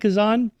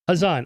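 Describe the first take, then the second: First: The name begins with a hard K sound. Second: The name begins with a soft breathy sound. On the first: The speaker calls it wrong. "Am I pronouncing that right" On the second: The speaker calls it right. "The the K is soft"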